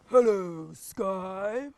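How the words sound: It is said in a big deep voice.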